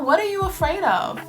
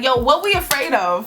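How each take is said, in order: First: It is asked in a gentle, caring tone. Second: It is asked in a harsh, impatient tone.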